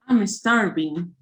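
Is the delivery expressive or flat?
expressive. It is said expressively, with lively intonation. The speaker calls it right. "So please use a good intonation"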